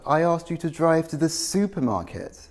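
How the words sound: The word supermarket carries the main stress. They should have gone to the supermarket, not the neighbour's. "I'm contrasting supermarket with neighbour, using contrastive stress"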